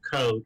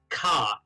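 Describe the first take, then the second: First: The vowel is a rounded 'oh' sound. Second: The vowel is an open 'ah' sound. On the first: It is the respectful pronunciation. The speaker calls it right. "instead of ko" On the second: It is a deliberate insult. The speaker calls it wrong. "those self-same ethnically uh, derogatory uh, Orlesians will often pronounce it ka"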